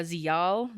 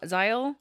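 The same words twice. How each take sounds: First: Zial as zee-AHL; unsure pronunciation. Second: Zial as ZY-ul, rising like a question; alternative pronunciation. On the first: Guessing at an alien name, Zial as zee-AHL. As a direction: say Zial with an ee, then a long ah. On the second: Second guess at an alien name, Zial as ZY-ul. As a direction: say Zial with an eye vowel, questioning. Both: Shown as a demonstration. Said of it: "I'm gonna butcher these so bad".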